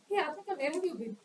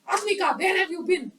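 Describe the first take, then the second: First: It is said softly and curiously. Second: It is said loudly and angrily.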